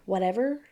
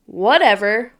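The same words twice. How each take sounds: First: "whatever" dropped soft and low; "whatever" let go quietly, giving up; resigned whatever. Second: "Whatever" tossed off with a lift at the end; "Whatever" said breezy and rising; casual whatever. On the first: Reading the wife's post, soft resigned "whatever". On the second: Reading the wife's post, breezy rising "Whatever". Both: Shown as a demonstration. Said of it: "if she says whatever".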